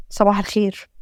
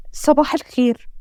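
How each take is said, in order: First: Low, subdued good morning, holding back worry; downcast greeting. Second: Said in the usual way. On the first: Acted. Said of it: "مش باين من صوتك".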